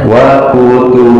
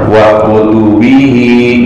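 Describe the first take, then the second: First: The word ends short without the 'hi' sound. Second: The word ends with a long 'hi' sound. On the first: The reading stops at this word. "jadi wa kutubi" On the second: The reading continues without stopping. "kalau di wakol dibaca panjang"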